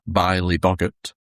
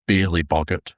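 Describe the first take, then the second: First: The first vowel sounds like 'eye'. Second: The first vowel sounds like 'ee'. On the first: The speaker calls it right. "not the Beely Boggart" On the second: The speaker calls it wrong. "as I said last time. Apparently I was pronouncing that wrong"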